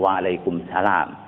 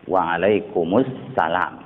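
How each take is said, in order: First: The 'al' article sound before salam is dropped. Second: The 'al' article sound before salam is pronounced. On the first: The speaker calls it wrong. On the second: The speaker calls it right. "kan pakai alif lam dia kan?"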